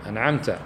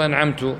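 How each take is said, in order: First: The verb ends with a short 'ta' sound. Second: The verb ends with a short 'tu' sound. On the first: The one addressed gave the blessing. The speaker calls it right. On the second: The speaker gave the blessing. The speaker calls it wrong.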